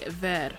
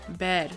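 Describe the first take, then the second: First: The first sound is a V sound. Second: The first sound is a B sound. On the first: This is how it is said in Latin America. "But in Latin America, they tend to say ver" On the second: This is how it is said in Spain. "in Spain, they tend to say ver, the V sound as a B sound"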